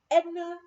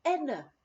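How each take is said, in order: First: Loud, high angry call of a name; blasting shout. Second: Said in the usual way. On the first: Retold or imitated. Angry cook blasting the lodge owner at the door. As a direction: blast the name at her as she comes in. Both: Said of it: "she blasted at me".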